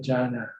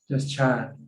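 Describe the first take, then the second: First: The word is two syllables, ending in 'na'. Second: The word is one syllable, without a final 'na'. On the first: This is how it is said in English. "In English, you have to say Jana" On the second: This is how it is said in Thai. "In Thai, we cut off the na, just Chan"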